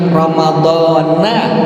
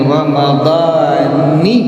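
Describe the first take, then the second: First: The word ends with an 'a' vowel. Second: The word ends with an 'i' vowel. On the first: The speaker calls it wrong. "itu salah" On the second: The speaker calls it right. "nunnya dikasrahkan, nunnya tidak difathahkan"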